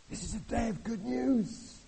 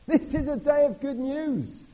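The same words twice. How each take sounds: First: Said in the usual way. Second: High, loud, slow proclamation; proclaiming. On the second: Acted. Preacher proclaims good news to the congregation, loud and slow. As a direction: announce it like a herald. Repeat, louder and higher.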